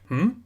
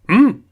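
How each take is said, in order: First: It sounds puzzled and questioning. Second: It sounds surprised and emphatic.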